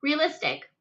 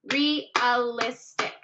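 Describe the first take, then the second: First: Said in the usual way. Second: "realistic" stretched slowly, re-al-is-tic; syllables split out slowly. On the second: Shown as a demonstration. Teacher counting syllables for students, slow and spaced.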